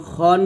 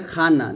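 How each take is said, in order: First: "খন" with a rounded o after the throaty kh. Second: "খানা" with an open a after kh; the mistaken "খান", open a in place of o; open-vowel "খান". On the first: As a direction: say "খন" with an o, avoiding an open a. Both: Shown as a demonstration. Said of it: "খন বলতে হবে".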